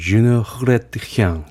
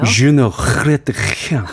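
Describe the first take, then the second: First: The French sounds are pronounced in a moderate way. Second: The French sounds are heavily rolled and nasal. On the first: "이렇게 멋있는 발음으로 듣고 싶었어요" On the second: "너무 굴려요 / 혀가 닳겠어"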